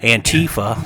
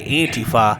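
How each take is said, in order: First: It is said in an American way. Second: It is said in a European way.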